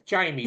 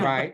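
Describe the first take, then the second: First: The name ends with an 'ee' sound. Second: The name ends with an 'ay' sound. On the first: This is the usual form of the name. "It's Jamie" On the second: This is how the character says her name. "but it's pronounced it"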